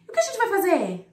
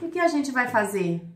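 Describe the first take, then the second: First: Said in the usual way. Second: "o que a gente vai fazer?" stretched out, trailing in doubt; drawn-out doubtful question. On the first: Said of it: "Não é assim". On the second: Shown as a demonstration. Teacher showing the ellipsis as a doubtful trailing question. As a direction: let the question hang with hesitation. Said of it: "tem uma reticências pra prolongar essa pergunta".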